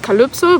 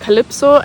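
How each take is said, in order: First: The vowel after L sounds lightly like u. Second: The vowel after L sounds like e. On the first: "you pronounce it with, like an U" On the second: "some people pronounce it more like an E"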